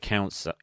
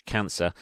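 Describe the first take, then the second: First: "cancer" said as "cowncer"; altered vowel. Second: Said in the usual way. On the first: Real, not acted. Talking of news of a death, "cancer" said as "cowncer". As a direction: stretch the first vowel of "cancer" to "ow". Mispronounced, then said over correctly.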